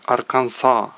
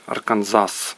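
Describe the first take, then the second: First: The word ends on a vowel, no s. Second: The word ends with an audible s sound. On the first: The speaker calls it right. "В Америці кажуть Арканса. Тобто нема закінчиться" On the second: The speaker calls it wrong. "американці не кажуть Арканзас"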